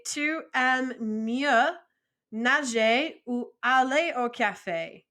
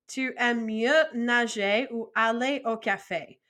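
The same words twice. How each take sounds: First: "mieux" drawn out very slowly, rising; slow French model. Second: Said in the usual way. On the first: Shown as a demonstration. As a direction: stretch out "Tu aimes mieux" for learners. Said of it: "I could also say". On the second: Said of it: "repeated at normal pace".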